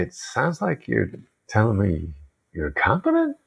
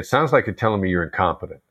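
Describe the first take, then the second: First: It is said in a gentle, non-accusing tone. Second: It is said in an accusing, insulting tone.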